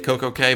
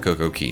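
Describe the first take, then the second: First: The last word sounds like 'kay'. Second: The last word sounds like 'key'. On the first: The speaker calls it wrong. "occasionally I drop out and say it Coco K" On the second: The speaker calls it right. "it's pronounced Coco Key"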